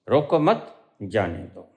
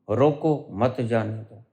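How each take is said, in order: First: The pause comes after the second word. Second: The pause comes after the first word.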